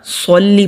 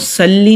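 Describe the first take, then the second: First: The s sound is heavy with a full mouth. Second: The s sound is thin and light. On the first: The speaker calls it right. "सोल्ली पढ़ना है" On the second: The speaker calls it wrong. "सल्ली नहीं पढ़ना"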